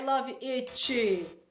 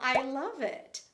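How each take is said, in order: First: The T is released with an added vowel after it. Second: The final T is soft, with no added vowel. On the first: The speaker calls it wrong. "Lembra do coçadinha" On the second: The speaker calls it right. "toda vez que termina com um T tem que ficar bem sutil"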